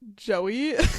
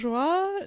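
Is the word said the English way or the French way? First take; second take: English; French. First: It is said like the English name Joey. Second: It is said with a French pronunciation. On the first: This is how the speaker reads it privately. "in my head I say Joey" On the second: This is how French speakers say it. "I think they say joie"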